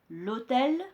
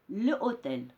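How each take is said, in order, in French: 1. La voyelle de l'article s'élide et se lie à hôtel. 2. La voyelle de l'article est gardée devant hôtel. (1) "on dit l'hôtel" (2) "il y a des difficultés de prononciation"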